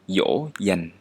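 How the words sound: The first sound is like an English y. "This sounds exactly like yes and yummy in English"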